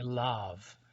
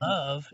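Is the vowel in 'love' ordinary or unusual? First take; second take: unusual; ordinary. First: The vowel in the word sounds unusual. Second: The vowel in the word sounds ordinary.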